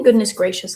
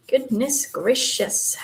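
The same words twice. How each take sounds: First: Said in the usual way. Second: Slow, drawn-out goodness gracious like a little Southern grandma; a sweet old-lady goodness gracious; Southern grandma exclaiming. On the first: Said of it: "I've been saying". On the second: Pretend. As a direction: stretch goodness gracious out slowly, grandma style. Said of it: "makes me sound like a little Southern grandma".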